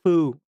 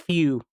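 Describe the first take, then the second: First: The name is said with a plain 'oo' vowel. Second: The name is said with a 'y' before 'oo'. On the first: The speaker calls it wrong. "It's not foo" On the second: The speaker calls it right. "It's few. That's how they want to pronounce him"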